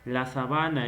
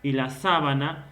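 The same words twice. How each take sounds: First: Sabana stressed on the middle BA; stress on second syllable. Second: Sábana stressed on the opening SÁ; stress on first syllable. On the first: Teacher contrasting two look-alike words, sabana stressed on BA. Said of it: "Y la sábana es con lo que te cubres". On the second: Teacher contrasting two look-alike words, sábana stressed on SÁ. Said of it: "el acento es distintivo". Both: Shown as a demonstration.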